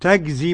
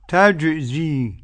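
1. الجيم شديدة، مثل g. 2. الجيم صوت رخو، مثل j. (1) "ما تنفعش" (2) "نحافظ على تعطيش الجيم"

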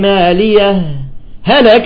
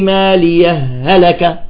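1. توجد وقفة قصيرة جدا بين الكلمتين. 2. تندمج الهاءان بلا وقفة. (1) "ولكن الأرجح الإظهار" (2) "الآن بدي أوصلهم كيف؟ الوصل كيف؟"

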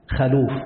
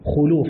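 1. الحركة الأولى صوت 'a'. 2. الحركة الأولى صوت 'u'. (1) "وأكثر المحدثين يفتحون خاءه وهو خطأ" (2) "قيدناه عن المتقنين بالضم"

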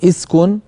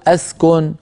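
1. تبدأ الكلمة بالكسرة. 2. تبدأ الكلمة بالفتحة. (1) "مكسورة" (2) "مفتوحة"

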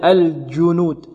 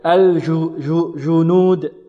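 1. الجيم يُنطق قريبًا من الدال. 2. الجيم رخوة، والهواء يستمر معها. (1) "يخرجها قريبة من الدال ... خلل في المخرج" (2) "أتى بالجيم رخوة وهي ماذا؟ شديدة"

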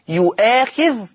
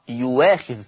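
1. تحتوي الكلمة على همزة بعد المقطع الأول. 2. تُبدل الهمزة بالصوت w.

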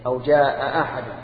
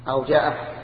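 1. تُنطق الهمزتان بين الكلمتين كلتاهما. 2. تُحذف إحدى الهمزتين. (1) "الأولى بتحقيق الهمزتين" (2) "والثانية بحذف إحداهما"

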